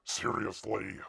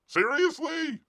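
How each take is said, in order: First: Said in the usual way. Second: Seriously? pitched way up in disbelief; a high, exasperated Seriously?; disbelieving high Seriously?; incredulous squeak. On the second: Real, not acted. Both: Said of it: "rising repeated seriously".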